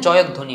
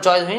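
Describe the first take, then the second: First: The middle 'dh' sound is held and doubled. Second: The middle 'dh' sound is said only once. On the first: The speaker calls it right. "জয়ধ্ এই দটা হবে" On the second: The speaker calls it wrong. "জয়ধ্বনি না"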